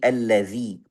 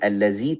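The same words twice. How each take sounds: First: The middle consonant is a voiced th sound. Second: The middle consonant is a plain z sound. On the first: The speaker calls it right. "Wajib kita keluarkan ujung lidah sedikit" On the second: The speaker calls it wrong. "bukan allazi"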